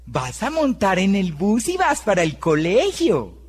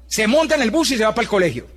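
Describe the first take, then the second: First: Put-on gentle, sugary voice for a little child; sweet pastel tone. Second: Said in the usual way. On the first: Shown as a demonstration. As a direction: coax it like talking to a small kid. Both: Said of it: "pero cambió el tono".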